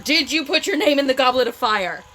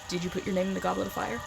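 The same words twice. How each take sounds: First: The question is yelled angrily. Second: The question is asked softly and calmly.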